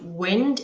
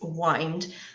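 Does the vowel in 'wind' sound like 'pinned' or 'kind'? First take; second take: pinned; kind. First: The vowel is short, as in 'pinned'. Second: The vowel is long, as in 'kind'. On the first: The speaker calls it wrong. "It's not wind" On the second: The speaker calls it right. "it's wind"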